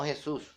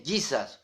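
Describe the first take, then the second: First: Said in the usual way. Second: "Jesus" slowly as English JEE-sas; English pronunciation of Jesus. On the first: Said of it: "no Jesús". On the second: Shown as a demonstration. Preacher reading out the spelling, "Jesus" as English JEE-sas. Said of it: "se lee Jesus, no Jesús".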